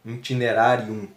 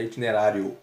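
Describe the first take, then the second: First: "Itinerarium" in Latin, closing on a clear final M; "Itinerarium" ending in -um, lips closed on the M; Latin form with M. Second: "itinerário" said as the Portuguese word, stress on -rá-; plain Portuguese "itinerário", ending in -o; Portuguese form. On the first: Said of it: "com M no final". ("Itinerarium" em latim, com M no final) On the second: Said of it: "Itinerarium com M no final". (forma portuguesa "itinerário") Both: Shown as a demonstration.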